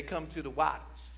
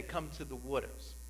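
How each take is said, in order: First: Said in the usual way. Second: New Jersey accent. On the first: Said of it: "Other places, we say". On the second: Shown as a demonstration. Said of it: "in New Jersey, we say".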